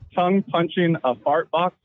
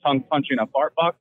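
First: The phrase is said slowly and deliberately. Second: The phrase is said at normal conversational speed.

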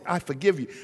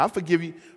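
First: It is said warmly and sincerely. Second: It is said grudgingly, like a curse word. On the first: The forgiveness is genuine. The speaker calls it right. "No, it's" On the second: The forgiveness is only lip service. The speaker calls it wrong. "I forgive you is almost like a cuss word to you"

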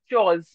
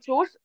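First: The r sound after the vowel is silent. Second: The r sound after the vowel is pronounced. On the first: The speaker calls it right. "Sound जो आएगी वो ऐसे आएगी. Chawz" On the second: The speaker calls it wrong. "Not chores"

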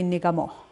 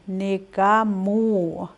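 First: The word ends on a plain vowel, no glide. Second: The word ends with a rounded w glide. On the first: It means sing. "without the W here, you would say nigamo" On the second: Someone sings. "he, she, it sings"

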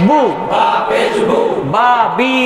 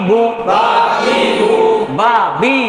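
No difference in how they are said.

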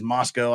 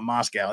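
First: It is pronounced the local Idaho way. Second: It is pronounced like the Russian capital. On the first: It names the town in Idaho. "That's how we pronounce it out there in Utah and Idaho" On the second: It names the capital of Russia. "not Moscow. That's that commie place over there"

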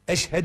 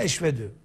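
First: The middle consonant is an h sound. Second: The middle consonant is a v sound. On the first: The speaker calls it right. "Eşhedü yerine eşvedü" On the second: The speaker calls it wrong. "Eşhedü yerine eşvedü. Namaz geçerli olmaz"

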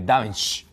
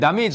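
First: The stress is on the first syllable. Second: The stress is on a later syllable. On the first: The speaker calls it right. "全部一番前の母音、そこにアクセントがあります" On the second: The speaker calls it wrong. "ダメージじゃなくて"

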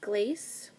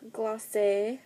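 First: The name is said in a plain English way. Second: The name is said in a fancy French way.

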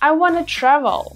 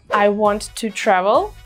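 First: Want and to merge into one reduced word. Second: Want and to are said as two full words. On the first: "мы говорим wanna" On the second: "вместо want to"

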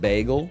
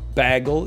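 First: It is said with an American pronunciation. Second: It is said with a Canadian pronunciation. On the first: "instead of bagel" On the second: "When Mike Myers says bagel"

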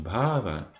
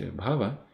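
First: The vowel after bh is long. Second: The vowel after bh is short. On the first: It names the stage of spiritual development preceding prema. The speaker calls it wrong. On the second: It means becoming, material existence. The speaker calls it right.

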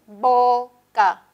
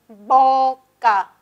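Both takes have the same delivery.

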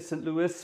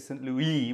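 First: The final s of Louis is pronounced. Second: The final s of Louis is silent. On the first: "with S" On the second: "without it"

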